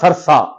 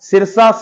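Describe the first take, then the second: First: The first vowel is a short 'a' sound. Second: The first vowel is a clear 'i' sound. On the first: The speaker calls it wrong. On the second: The speaker calls it right.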